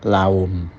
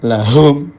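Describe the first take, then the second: First: The throat h is left out entirely. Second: The throat h is pushed out too strongly. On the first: "tidak pula laum" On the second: "Tidak lahum"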